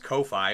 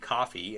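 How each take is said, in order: First: The first syllable sounds like 'co' in 'cozy'. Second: The first syllable sounds like 'caw' in 'coffee'. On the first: The speaker calls it wrong. "I always read it as Ko-fi" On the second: The speaker calls it right. "but I guess it would be coffee"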